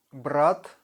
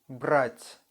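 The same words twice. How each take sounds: First: "Брат" ending on a hard T; no softening on the end of "Брат". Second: "брать" ending on a palatalized T; soft T. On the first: Teacher contrasts two words for learners, hard T in "Брат". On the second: Teacher contrasts two words for learners, soft T in "брать". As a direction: soften the last T of "брать". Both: Shown as a demonstration. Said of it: "soft and hard T sound".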